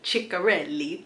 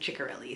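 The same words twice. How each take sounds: First: The surname is said with Italian pronunciation. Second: The surname is said with English pronunciation. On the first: It follows the pronunciation of the name's origin. "this last name is Italian, okay? But that is how the pronunciation video told me it was pronounced" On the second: It is the speaker's own easier pronunciation. "but I'm just gonna say Kristen Ciccarelli"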